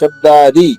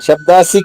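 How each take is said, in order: First: The last syllable is pronounced 'di'. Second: The last syllable is pronounced 'si'. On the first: The speaker calls it right. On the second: The speaker calls it wrong. "శబ్దాసి కాదు"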